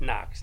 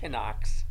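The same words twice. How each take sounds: First: The K at the start is silent. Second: The K at the start is pronounced. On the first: The speaker calls it right. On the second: The speaker calls it wrong.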